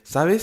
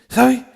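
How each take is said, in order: First: The S sound is clear and fully audible. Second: The S sound is faint and barely heard. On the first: "They're clear when they speak. It's audible. It's clear" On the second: "Listen to the way that this argentino is using the letter S"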